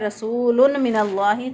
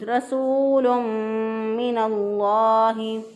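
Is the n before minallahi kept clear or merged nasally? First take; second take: clear; merged. First: The n is pronounced clearly without nasal merging. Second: The n merges into the m with nasalization. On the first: The speaker calls it wrong. "गुन्ना नहीं करते बल्कि इसको इजहार कर देते हैं" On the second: The speaker calls it right. "दुरुस्त अदायगी है"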